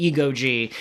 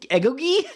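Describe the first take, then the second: First: Ego G said as two words, EE-go then the letter G; correct reading. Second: Egogi said as one word, eh-GO-ghee with a hard g; misread name. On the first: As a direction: split ego G apart, ego plus the letter G. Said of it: "it was ego energy". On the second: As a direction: read Egogi as it looks spelled, eh-go-ghee. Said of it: "because of the way it was spelled". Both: Shown as a demonstration.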